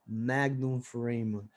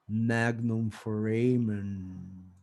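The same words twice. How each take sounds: First: It is said in a normal voice. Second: It is said in a deep voice.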